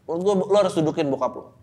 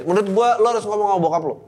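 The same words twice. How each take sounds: First: Said in the usual way. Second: Emphatic advice. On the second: Real, not acted.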